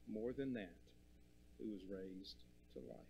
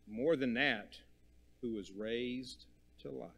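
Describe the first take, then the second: First: Much softer, dropping almost to a murmur; hushed repeat. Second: Said in the usual way. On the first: Shown as a demonstration. Preacher repeating the resurrection line, softly hushed. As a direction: let it sink in quietly.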